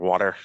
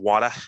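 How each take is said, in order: First: It is said in a general American accent. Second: It is said in a Boston accent. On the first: "water if you're not from the Boston area" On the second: "I like Wada because you know it's Boston"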